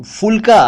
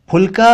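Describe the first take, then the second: First: फुलका as "fulka", pitched higher; mispronounced ph as f. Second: फुलका as "p-hulka"; aspirated ph. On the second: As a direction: puff the start of फुलका. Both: Shown as a demonstration. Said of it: "कहा जाता है".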